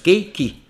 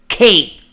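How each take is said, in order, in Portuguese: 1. Ela termina com uma vogal extra, então são duas sílabas. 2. É uma sílaba só, terminando em um K prolongado. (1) "Tem duas sílabas" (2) "O K tá parado lá. E dá pra ouvir ele"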